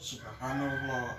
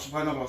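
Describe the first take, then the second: First: It is said slowly and calmly. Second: It is said quickly and hurriedly.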